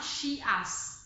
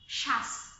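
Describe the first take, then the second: First: The ending is two syllables, 'shee-us'. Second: The ending is one syllable, 'shus'. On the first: The speaker calls it wrong. "not shias" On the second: The speaker calls it right. "you will pronounce it as shas"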